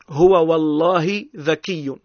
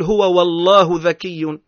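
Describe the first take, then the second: First: The word Allah ends with an i vowel. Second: The word Allah ends with a u vowel. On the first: It is an oath sworn by God. The speaker calls it right. "أنت تقسم هنا" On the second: God becomes the subject being described. The speaker calls it wrong. "لا تقول"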